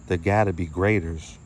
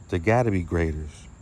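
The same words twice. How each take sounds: The two takes are said the same way.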